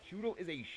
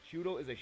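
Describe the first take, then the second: No difference in how they are said.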